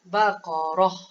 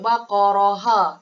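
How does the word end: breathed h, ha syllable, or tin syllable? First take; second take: breathed h; ha syllable. First: The word ends with only a breathed h. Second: The word ends with a voiced 'ha' syllable. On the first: The speaker calls it right. "kita matikan dia, kita hanya uh, keluar angin saja" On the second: The speaker calls it wrong. "kita tak boleh sebut baqaraha. Tak boleh"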